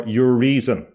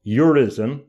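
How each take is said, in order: First: "Urizen" as your-REE-zen, like "your reason"; "Urizen" with a long ee in the middle; preferred pronunciation. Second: "Urizen" as YOO-rih-zen, short middle vowel; "Urizen" rhyming loosely with "horizon" minus the long i; alternative pronunciation. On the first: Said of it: "I pronounce it Urizen because it makes more sense". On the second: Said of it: "I pronounce it Urizen". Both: Shown as a demonstration.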